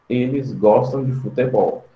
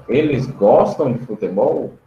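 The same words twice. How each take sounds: First: Eles gostam de futebol said as a plain statement, falling at the end; statement tune. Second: "eles gostam de futebol?" asked with the voice rising toward the end; question tune. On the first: Teacher reads the affirmative sentence to the class, falling statement tune. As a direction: say "Eles gostam de futebol" as a flat fact, dropping on futebol. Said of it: "a frase seria afirmativa". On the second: Teacher turns the sentence into a question for students, rising tune. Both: Shown as a demonstration.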